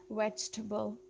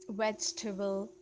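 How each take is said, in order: First: It is said with a native-speaker pronunciation. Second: It is said with a native-speaker pronunciation.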